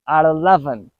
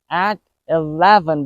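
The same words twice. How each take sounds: First: The T is a quick soft D sound. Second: The T is a clear T sound.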